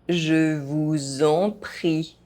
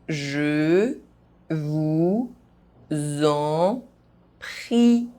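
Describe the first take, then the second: First: The phrase is spoken at normal pace. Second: The phrase is spoken very slowly. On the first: "at a normal pace" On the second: "very slowly"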